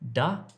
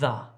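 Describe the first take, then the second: First: The word begins with a hard d sound. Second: The word begins with a soft th sound. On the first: The speaker calls it wrong. "Don't say da if you're trying to say the" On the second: The speaker calls it right. "trying to say the"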